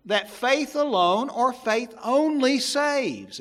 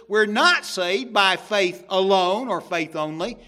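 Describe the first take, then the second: First: Slow, weighty, with "only" leaned on hard and falling; stress on only. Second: "not" punched loud with a rising finish; stress on not. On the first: Preacher quoting the claim he rejects, stressing "only". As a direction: drag out "faith only" with emphasis on "only". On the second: Preacher countering with scripture, stressing "not". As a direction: hit "not" hard, the denial of "faith alone". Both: Shown as a demonstration. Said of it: "it says just the opposite".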